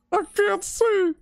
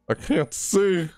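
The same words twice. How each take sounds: First: Slow, very high wail; desperate wail. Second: Slow, high-pitched complaint; dismayed complaint. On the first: Player with lights messed with, desperate wail. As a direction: wail it out, drawn out and squealing. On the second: Player with lights messed with, dismayed. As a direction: draw it out, voice raised in dismay. Lights failing in horror game. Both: Real, not acted.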